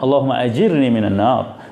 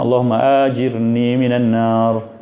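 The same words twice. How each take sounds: First: The vowel is kept short, not lengthened. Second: The vowel is drawn out long. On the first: The speaker calls it right. "Bacaannya tanpa mat eh a tu jangan dimatkan" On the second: The speaker calls it wrong. "Ada setengah pula kita dengar"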